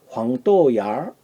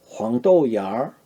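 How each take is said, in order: No difference in how they are said.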